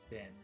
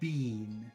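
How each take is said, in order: First: The vowel is short, like 'bin'. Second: The vowel is long, like 'bean'. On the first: This is how most Americans say it. "That's very short, bin" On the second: This is how Canadians say it. "They make it very long. Bean"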